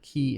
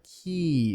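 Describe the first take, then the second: First: The vowel is cut short. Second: The vowel is held long. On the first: "key in Korean" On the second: "key is longer than"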